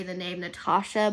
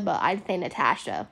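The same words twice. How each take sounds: First: Natasha with an open AH in the middle; long AH in "Natasha"; British-style Natasha. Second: Natasha with the A of cat; American A in "Natasha"; American-style Natasha. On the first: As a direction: say Natasha as na-TAH-sha. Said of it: "how you're actually supposed to say". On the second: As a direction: say Natasha as na-TASH-a, short A. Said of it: "with an A instead of an A". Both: Shown as a demonstration.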